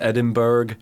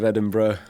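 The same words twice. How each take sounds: First: The ending is said the American way. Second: The ending is said the British way. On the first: "you guys" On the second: "instead of"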